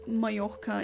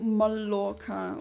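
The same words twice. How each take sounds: First: The double L sounds like a y. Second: The double L sounds like an l. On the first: The speaker calls it right. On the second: The speaker calls it wrong.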